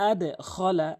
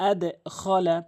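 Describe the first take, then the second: The two takes are said the same way.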